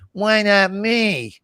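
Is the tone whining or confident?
whining. It is said in a whining tone.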